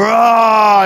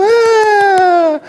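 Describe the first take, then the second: First: Imitated roar of a dunk; little boy's yell. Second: Long, high mimicked shriek; little girl's squeal. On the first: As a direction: roar it out like a boy dunking. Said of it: "and he'd go". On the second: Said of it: "And she'd go".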